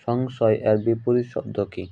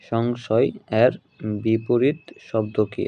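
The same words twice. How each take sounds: First: Said in the usual way. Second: Slow, measured question with a pause after সংশয় এর; slow repeat. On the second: Real, not acted. Teacher repeating an exam question for students, slowly and deliberately. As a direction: draw out সংশয় এর, then বিপরীত শব্দ কি.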